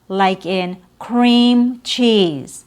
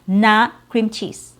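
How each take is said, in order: First: The E vowel is held long. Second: The E vowel is cut short. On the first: The speaker calls it right. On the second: The speaker calls it wrong.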